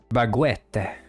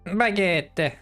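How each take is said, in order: First: The word is said with a French accent. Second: The word is said with an English accent.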